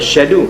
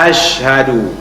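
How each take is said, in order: First: The opening vowel is dropped, starting with 'sh'. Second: It starts with 'ash', given a breathy 'sh'. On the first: The speaker calls it wrong. "kadang-kadang dia syadu" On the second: The speaker calls it right. "Ash, ha, bagi berangin sikit"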